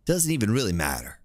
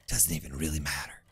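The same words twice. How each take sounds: First: Said in the usual way. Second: Much lower and softer echo of the line; quiet low repeat. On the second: Real, not acted. Streamer echoing himself to himself, quiet and low. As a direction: mutter it again under the breath, low.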